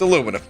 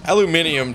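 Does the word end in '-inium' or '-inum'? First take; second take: -inum; -inium. First: The word ends with a short '-num' syllable. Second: The word ends with an extra '-ium' syllable. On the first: The speaker calls it right. "It's aluminum. Get out of here" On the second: The speaker calls it wrong. "It just sounds so wrong"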